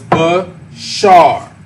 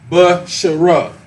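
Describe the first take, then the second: First: The word ends on the 'r' sound. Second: The word ends with an extra 'a' vowel. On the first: The speaker calls it right. "So the A drops off" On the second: The speaker calls it wrong. "so it's not ba, shara"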